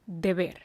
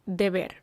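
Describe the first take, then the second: No difference in how they are said.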